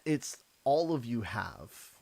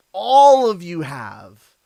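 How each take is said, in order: First: Said in the usual way. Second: "All" slow and much louder, every word pressed; stress on ALL. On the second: Shown as a demonstration. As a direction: hit "All of you have" slow and loud.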